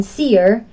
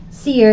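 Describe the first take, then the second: First: "seer" split as see-er; two-syllable seer. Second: "seer" as a single syllable; one-syllable seer. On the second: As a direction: say "seer" in one beat, vowel gliding into the r. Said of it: "seer is monosyllabic". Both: Shown as a demonstration.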